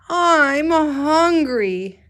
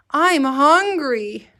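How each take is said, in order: First: Much higher, louder, very slow whine; reading the hungry boy's line to the class. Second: High, slow, whiny hungry voice; teacher modeling a hungry child's whine. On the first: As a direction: drag it out like a starving kid. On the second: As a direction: stretch it out like a hungry kid. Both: Shown as a demonstration. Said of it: "important to use your voice".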